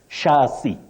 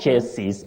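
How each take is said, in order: First: It uses the recommended pronunciation of the word. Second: It uses the commonly heard pronunciation of the word. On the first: The speaker calls it right. "And you say chassis" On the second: The speaker calls it wrong. "not chassis that we commonly hear around us"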